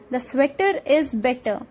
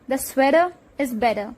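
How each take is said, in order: First: The middle T sounds are a clear T. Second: The middle T sounds turn into a D.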